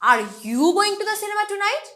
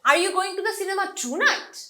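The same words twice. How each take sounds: First: The word you is stressed. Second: The word tonight is stressed. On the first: Is it really this person who is going? "তার মানে আজকে কি তুমিই যাচ্ছ cinema দেখতে" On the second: Is it tonight, or some other day? "মানে তুমি কি আজ রাত যাচ্ছ নাকি অন্য কোনো দিন যাবা"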